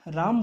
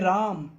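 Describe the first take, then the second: First: The word is said plainly with a short vowel. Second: The word is called out with a long vowel. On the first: The name is simply mentioned. "अगर हम normally राम बोलते हैं" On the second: Someone is being called from afar. "जैसे हम राम को पुकारेंगे राम, तो ये जो खिंचाव आया"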